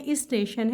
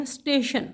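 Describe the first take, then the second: First: "اسٹیشن" with i before st, is-teshan; correct pronunciation. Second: "اسٹیشن" with the first vowel dropped, steshan; common mispronunciation. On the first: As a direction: start "اسٹیشن" on a short i: isteshan. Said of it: "سے پہلے الف ہے". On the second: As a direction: start "اسٹیشن" straight on st. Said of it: "غلط العام میں بولتے ہیں". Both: Shown as a demonstration.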